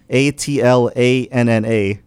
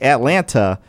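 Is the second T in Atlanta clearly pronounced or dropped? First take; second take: dropped; clear. First: The second T is softened or dropped. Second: The second T is pronounced hard and clearly. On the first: It is how most local people say it. "most metro Atlantans say Atlanta. Yeah. They just make it sound like Atlanta" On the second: It is the professional, broadcaster way of saying it. "people put emphasis on the T hard sometimes, like Atlanta"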